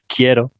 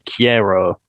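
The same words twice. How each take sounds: First: It is said with a Spanish accent. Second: It is said with a British English accent. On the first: The speaker calls it right. "instead of saying like quiero" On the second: The speaker calls it wrong. "a lot of British people who would ... say quiero"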